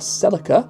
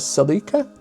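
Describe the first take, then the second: First: It is said in the North American pronunciation. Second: It is said in a non-North American pronunciation.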